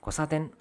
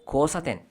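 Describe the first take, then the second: First: The first vowel is kept short. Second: The first vowel is drawn out long. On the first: The speaker calls it wrong. "ಅವ್ರಿಗೆ ಅರ್ಥನೇ ಆಗಲ್ಲ ನೀವು ಹಂಗಂದ್ರೆ" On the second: The speaker calls it right. "ದೀರ್ಘಾಕ್ಷರ ಬರ್ತಲ್ಲ ಇಲ್ಲಿ"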